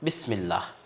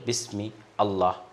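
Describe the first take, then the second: First: It is said smoothly without any pause. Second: There is a pause after bismi. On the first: The speaker calls it right. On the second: The speaker calls it wrong.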